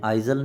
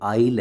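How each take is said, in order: First: A z sound is heard before the final l. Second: No z sound is heard before the final l. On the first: The speaker calls it wrong. "कई बच्चे इसको आइजल बोलते हैं, आइजल नहीं है ये" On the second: The speaker calls it right. "आइल है"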